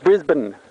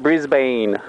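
First: The second syllable is reduced to a short sound. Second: The second syllable is fully pronounced. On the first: The speaker calls it right. "It's Brisbane. B-R-I-S-B-N" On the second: The speaker calls it wrong. "It's not Brisbane"

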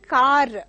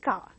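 First: The final R is sounded. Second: The final R is silent. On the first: The speaker calls it wrong. "they say" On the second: The speaker calls it right. "it is just car"

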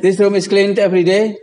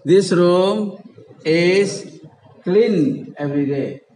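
First: The voice rises at the end, like a question. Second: The voice falls at the end, like a statement. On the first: It is asked as a question. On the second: It is stated as a fact.

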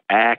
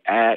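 First: The vowel is open and low. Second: The vowel is raised slightly higher.

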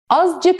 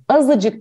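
First: No vowel is heard between z and c. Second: An ı vowel is heard between z and c. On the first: The speaker calls it wrong. "Azcık mı diyorsun" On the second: The speaker calls it right. "Azıcık diyorsun"

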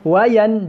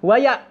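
First: The n is pronounced fully and clearly. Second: The n is merged into the following glottal sound. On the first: The speaker calls it right. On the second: The speaker calls it wrong. "dia tak masuk dalam huruf hamzah"

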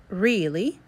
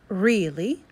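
First: The first vowel is a long E sound. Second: The first vowel is a long E sound.

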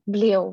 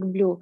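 First: The word ends in two vowels, 'eh' then 'o'. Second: The word ends in a long 'oo' vowel. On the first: This is the reading that follows the written letters. "На русском, если читать то, как мы видим, как «блео»" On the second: This is the reading someone else uses. "Вот Александр читает как blue"

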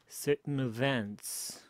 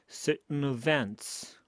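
The two takes are said the same way.

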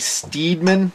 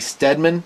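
First: The first vowel is a long 'ee' sound. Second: The first vowel is a short 'eh' sound. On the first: This is how some other people say it. "Some people say Steedman" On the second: This is how the speaker says it. "but I say Steadman"

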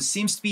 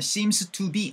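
First: The words run together softly and smoothly. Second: Each word is said separately and distinctly. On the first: The speaker calls it right. "부드럽게 흘려버릴 수밖에 없어서" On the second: The speaker calls it wrong. "Seems to be 아니고"

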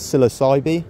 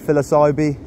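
First: It is said with the British pronunciation. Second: It is said with the initial P sounded. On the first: "in the UK, we pronounce the genus Psilocybe as Psilocybe" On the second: "no one really says it like that, although you will be understood"

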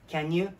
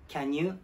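The two takes are said the same way.

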